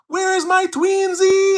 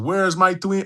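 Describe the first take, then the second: First: It is said in a put-on voice. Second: It is said in his normal voice.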